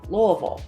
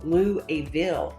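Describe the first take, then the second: First: It is pronounced the way locals say it. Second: It is pronounced the way outsiders say it. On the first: The speaker is from the city. The speaker calls it right. "it's actually pronounced Louisville" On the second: The speaker is not from the city. The speaker calls it wrong. "people will say"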